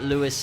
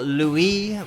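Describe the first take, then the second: First: The name is pronounced the English way. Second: The name is pronounced the French way.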